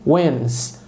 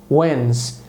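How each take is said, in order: Both takes have the same delivery.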